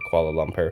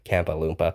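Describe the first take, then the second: First: The name is said as Kuala Lumpur. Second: The name is said as Kampa Loompa. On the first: "I would call cities like Kuala Lumpur" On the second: "bad pronunciation"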